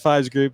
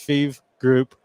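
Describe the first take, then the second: First: The name is said with an 'eye' vowel. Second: The name is said with an 'ee' vowel. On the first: The speaker calls it wrong. "it sounds like Fives Group" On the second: The speaker calls it right. "but it's feeve group dot com"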